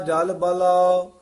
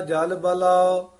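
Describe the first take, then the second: Both takes have the same delivery.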